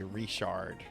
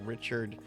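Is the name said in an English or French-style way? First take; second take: French; English. First: The name is said with a French-style pronunciation. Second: The name is said with a plain English pronunciation. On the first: "weird French twist to it" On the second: "instead of saying Richard"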